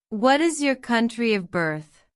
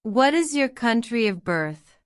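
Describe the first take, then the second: No difference in how they are said.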